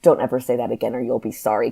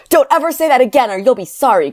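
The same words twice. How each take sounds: First: Said in the usual way. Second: High, loud angry yell; shouted. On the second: A narrator's reading. Kyron warning Corinne, angry shout. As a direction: shout the warning at full force. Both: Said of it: "Kyron shouted".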